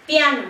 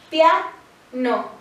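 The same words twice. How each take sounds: First: Said in the usual way. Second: "pia-no" said as two syllables, a short break between pia and no; split into syllables. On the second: Shown as a demonstration. Teacher dividing a word into syllables for students, deliberately. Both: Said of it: "Al dividirla".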